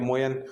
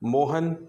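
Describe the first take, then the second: First: The middle consonant is a 'y' sound. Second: The middle consonant is an 'h' sound. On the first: This is how a Malvi speaker says it. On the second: This is the standard pronunciation.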